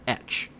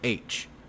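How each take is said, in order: First: The letter name begins with an 'eh' vowel. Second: The letter name begins with an 'ay' vowel. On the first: "I would call the letter etch" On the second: "I did not call it H"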